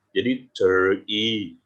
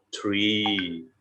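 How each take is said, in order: First: "tree" with a drawn-out long I, very slow. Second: Said in the usual way. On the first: Shown as a demonstration. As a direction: stretch the vowel of "tree" slowly. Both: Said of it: "tarik ya, I".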